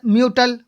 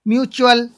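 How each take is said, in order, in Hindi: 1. बीच का व्यंजन सादा t ध्वनि है। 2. बीच का व्यंजन ch ध्वनि है। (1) "म्यूटल नहीं बोलेंगे" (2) "च ही बोलेंगे"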